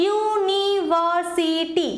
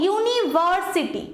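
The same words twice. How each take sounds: First: university very slowly, every syllable separated. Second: university grouped, with ভার stressed. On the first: Teacher showing students how to practise words, slow syllable-by-syllable. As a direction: break university into drawn-out syllables. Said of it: "এইভাবে practice করতে পারো". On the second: Teacher showing stress on third-last syllable, stressed ভার. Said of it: "লাস্টের দিক থেকে যে third হচ্ছে". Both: Shown as a demonstration.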